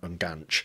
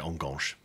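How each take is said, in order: First: The word is said without a French-sounding accent. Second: The word is said with a French-sounding accent. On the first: This is how the word is properly said. "I know it's" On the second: This is the speaker's habitual way of saying it. "I always just say Enganche"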